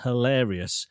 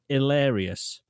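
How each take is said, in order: First: The word starts with a clear H sound. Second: The word starts without any H sound. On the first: The speaker calls it right. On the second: The speaker calls it wrong.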